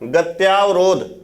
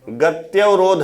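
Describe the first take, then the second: First: The vowel after 'gaty' is a long 'aa'. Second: The vowel after 'gaty' is a short 'a'. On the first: The speaker calls it wrong. "जैसे आप लिख देते हो कभी कभी गत्यावरोध, लेकिन सही क्या है?" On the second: The speaker calls it right. "सही क्या है? गत्यवरोध है।"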